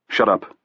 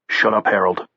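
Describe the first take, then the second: First: Not unkindly. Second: Firm, unkind shut-up; not kindly. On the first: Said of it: "not unkindly". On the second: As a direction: cut him off coldly. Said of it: "not kindly at all". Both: A narrator's reading.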